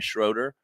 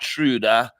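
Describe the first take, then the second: First: The surname has a plain English pronunciation. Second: The surname has a full German pronunciation. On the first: "So we're going to call her Jenna Schroeder" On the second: "the full on G- German pronunciation of her last name"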